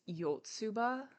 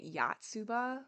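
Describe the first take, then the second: First: The first vowel is a rounded 'oh' sound. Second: The first vowel is an open 'ah' sound. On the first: The speaker calls it right. "It's Yotsuba" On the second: The speaker calls it wrong. "I was saying it with my American Chicago accent"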